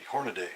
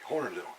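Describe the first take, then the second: First: The last syllable sounds like 'day'. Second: The last syllable sounds like 'dee'. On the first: The speaker calls it wrong. "I've heard people mispronounce it constantly" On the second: The speaker calls it right. "it's Hornady"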